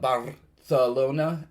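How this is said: It is said with a Spain Spanish accent.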